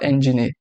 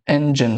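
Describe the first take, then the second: First: The word is said with three syllables. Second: The word is said with two syllables. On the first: The speaker calls it wrong. "e não três, como as pessoas costumam falar" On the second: The speaker calls it right. "São duas sílabas e não três"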